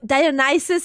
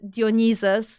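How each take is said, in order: First: The name is said with English pronunciation. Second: The name is said with Polish pronunciation. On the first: "Is that how you call call call him?" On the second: "in Polish it's uh"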